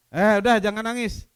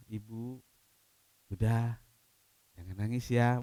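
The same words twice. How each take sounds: First: Brisk, careless comfort, louder; offhand shushing, no real sympathy; brushing off. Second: Soft, gentle and much quieter; hushed, caring reassurance; tender comfort. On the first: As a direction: toss it off like a quick dismissal. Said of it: "Enggak lah". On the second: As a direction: soothe her with a hand on her shoulder. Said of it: "Mungkin dipegang bahunya". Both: Shown as a demonstration.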